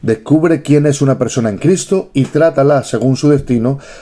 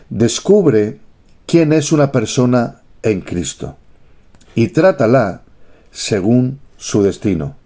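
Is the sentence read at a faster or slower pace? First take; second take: faster; slower. First: The sentence is read at a faster pace. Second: The sentence is read at a slower pace.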